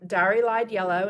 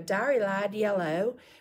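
First: It is said in the speaker's usual neutral accent. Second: It is said in a Southern American accent.

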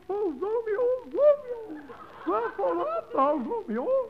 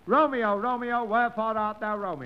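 First: It is said in a put-on girlish voice. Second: It is said in his normal voice.

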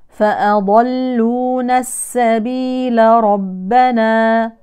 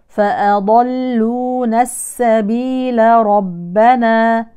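Both takes have the same delivery.

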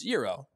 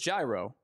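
First: It is said with the Greek food pronunciation. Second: It is said with the baseball pitch pronunciation. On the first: It names the Greek meat dish. "the food that you're referencing is Gyro because it's Greek" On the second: It names the baseball pitch. "it is gyro when it comes to baseball"

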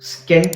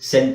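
First: A k sound follows the initial s. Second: No k sound follows the initial s. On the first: The speaker calls it wrong. "ಸ್ಕೆಂಟ್ ಅಂತ ಹೇಳಲ್ಲ" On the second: The speaker calls it right. "ಸೆಂಟ್ ಅಂತ ಹೇಳ್ತೀವಿ"

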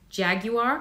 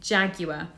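First: It is said with an American pronunciation. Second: It is said with a British pronunciation. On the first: The speaker calls it wrong. "We don't say it in the American way" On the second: The speaker calls it right. "It's Jaguar"

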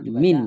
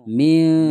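First: The n is pronounced plainly, without a hum. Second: The n is hidden with a nasal hum. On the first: The speaker calls it wrong. "Tidak boleh dibaca min ya" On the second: The speaker calls it right. "Setelah samar kemudian diikuti ber, berdengung"

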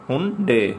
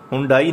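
First: The word ends with an 'ay' sound. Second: The word ends with an 'eye' sound. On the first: The speaker calls it right. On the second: The speaker calls it wrong. "हुंडाई नहीं कहना इसको"

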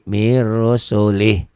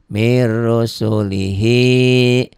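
First: The phrase ends on the consonant h. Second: The phrase ends with a final i vowel. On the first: The reading stops at this word. "Kalau dihentikan jadi mir rusulih. I-nya nggak dibaca" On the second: The reading continues without stopping. "Kalau dibaca apa adanya ya"

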